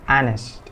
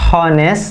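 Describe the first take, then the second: First: The h at the start is silent. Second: The h at the start is pronounced. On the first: The speaker calls it right. "H-nya ini sebenarnya nggak dibaca. Tapi dibacanya honest" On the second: The speaker calls it wrong. "It's not honest gitu"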